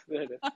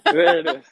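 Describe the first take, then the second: First: Said in the usual way. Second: Laughing out the words, higher and louder. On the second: Real, not acted. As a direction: burst out with a laugh. Host laughs at caller's joke.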